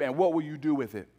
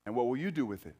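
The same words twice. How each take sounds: First: Fast, pressing question; quick challenge. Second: Softer, lower, reflective repeat. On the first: Pastor presses the congregation, fast and urgent. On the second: Pastor repeats the question to the congregation, softly. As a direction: let the question sink in quietly. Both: Real, not acted.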